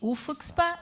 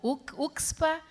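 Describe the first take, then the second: First: The letter F is sounded in the acronym. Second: The letter F is left out of the acronym. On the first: "A gente pode pronunciar o F" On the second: "ou não"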